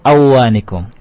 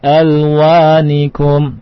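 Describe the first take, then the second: First: The L sound is left out. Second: The L sound is pronounced clearly. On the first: The speaker calls it wrong. "tidak kita baca awanikum" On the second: The speaker calls it right. "Tapi jelas izhar"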